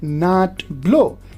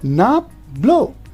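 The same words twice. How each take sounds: First: The t at the end of not is clear. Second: The t at the end of not changes. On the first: The speaker calls it wrong. "not like not blow" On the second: The speaker calls it right. "We'll say not blow"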